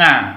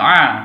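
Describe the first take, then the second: First: It starts with a nasal 'ng' sound. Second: It is a throaty vowel sound with no nasal. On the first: The speaker calls it wrong. "bukan nga" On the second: The speaker calls it right. "Ini yang benar membacanya a"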